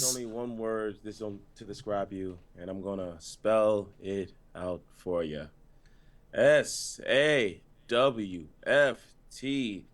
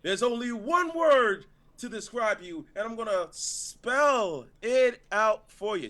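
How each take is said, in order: First: Low, slow monotone promo; deep deadpan line reading, spelling letter by slow letter; emotionless wrestler impression. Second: High, slow, dramatic delivery; too much emotion. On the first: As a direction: drain the emotion, drop deep and drag it out. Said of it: "more emotion than him already". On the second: Acted. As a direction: draw it out with big showy feeling. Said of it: "you've already had more emotion".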